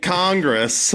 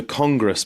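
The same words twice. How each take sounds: First: "Congress" in American, drawn out and higher; American accent. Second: "Congress" with a South African vowel; South African accent. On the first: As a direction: correct it to an exaggerated American "Congress". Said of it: "Oh, there's the Congress building". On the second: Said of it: "I mean, Congress". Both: Retold or imitated.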